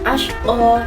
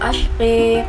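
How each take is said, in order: First: The final vowel is a plain open a. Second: The final vowel is tilted toward e.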